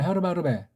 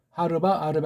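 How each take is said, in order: First: The two words are run together as one. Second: The two words are said as separate words.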